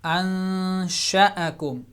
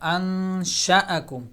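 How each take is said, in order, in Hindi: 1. 'sh' के बाद का स्वर छोटा रखा जाता है। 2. 'sh' के बाद का स्वर छोटा रखा जाता है।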